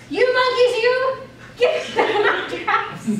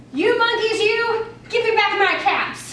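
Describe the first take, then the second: First: Much higher and louder, stifling a laugh; angry yell breaking into laughter; angry peddler. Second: Higher and louder, scolding the monkeys; a peddler shouting up at thieving monkeys. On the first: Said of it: "This made the peddler angry". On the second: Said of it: "he spoke to them". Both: Acted.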